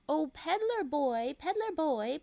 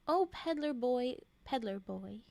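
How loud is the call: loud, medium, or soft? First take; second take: medium; soft. First: It is said a little louder than normal. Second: It is said at a normal, soft volume.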